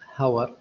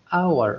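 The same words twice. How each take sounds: First: The word begins with an h sound. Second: The word begins with a vowel sound. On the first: The speaker calls it wrong. "ما نطقتها hour" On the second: The speaker calls it right. "أنا أنطقها hour"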